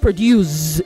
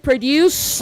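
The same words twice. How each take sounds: First: The word ends with a z sound. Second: The word ends with an s sound. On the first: The speaker calls it wrong. "not Z E" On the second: The speaker calls it right. "It is P R O D U C E"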